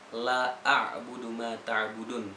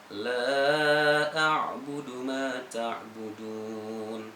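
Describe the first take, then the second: First: The vowel in 'la' is cut short. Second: The vowel in 'la' is held long. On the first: The speaker calls it wrong. "Jadi la-nya dihendapi" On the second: The speaker calls it right. "kalau yang panjang la a'budu ma ta'budun"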